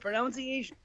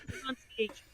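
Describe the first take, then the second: First: The second syllable sounds like 'nounce'. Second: The second syllable sounds like 'nun'. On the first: The speaker calls it wrong. "I can't even pronounce pronunciation... that's how I say it" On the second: The speaker calls it right. "It's pronunciation. Pardon me"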